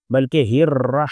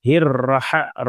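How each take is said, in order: First: الرح with the ha closed, no vowel after it; ha with jazm. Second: الرح with a vowel after the ha, the wrong way. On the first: Teacher showing the correct reading of الرح. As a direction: stop cleanly on the ha of الرح. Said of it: "یہ ہا کے اوپر جزم ہے". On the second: Teacher demonstrating the wrong reading of الرح. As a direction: show the mistake, an a after the ha. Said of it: "رح پڑھیں گے تو ہا کے اوپر زبر ہو جائے گا". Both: Shown as a demonstration.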